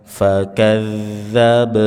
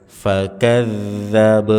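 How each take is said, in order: The two takes are said the same way.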